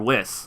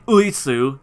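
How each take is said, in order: First: It is said as a one-syllable English-style word. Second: It is said as a three-syllable Japanese-style name. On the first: The speaker calls it right. "you say Whis" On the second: The speaker calls it wrong. "you wouldn't say Uisu"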